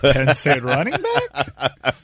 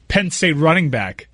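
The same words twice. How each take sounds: First: It ends with a rising question tune. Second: It ends with a falling statement tune.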